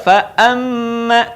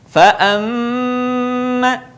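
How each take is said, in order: First: The doubled m is said quickly, not held. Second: The doubled m is held long and nasal. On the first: The speaker calls it wrong. "bukan juga fa'amma" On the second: The speaker calls it right. "tahan suaranya, tidak boleh tergesa-gesa"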